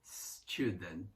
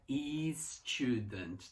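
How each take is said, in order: First: "Student." starting straight on the s, no extra vowel; student without the i. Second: "e student" said with an extra e before the s; wrong pronunciation of student. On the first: Teacher models "Student." with no vowel before the s. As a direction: begin "Student." with a clean s. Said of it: "Não tem o I". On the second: Teacher shows the wrong way Brazilians say "student". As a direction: put an i sound in front: "e student". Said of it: "Não é e student". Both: Shown as a demonstration.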